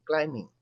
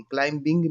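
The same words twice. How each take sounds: First: क्लाइंबिंग said klai-ming, no b; silent b. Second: क्लाइंबिंग said klaim-bing, b sounded; wrong way with b. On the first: Teacher showing children the right reading: silent b. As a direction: drop the b in क्लाइंबिंग. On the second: Teacher showing children the wrong reading: b sounded. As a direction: sound the b in क्लाइंबिंग to show the error. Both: Shown as a demonstration. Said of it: "क्लाइंबिंग नहीं कहेंगे".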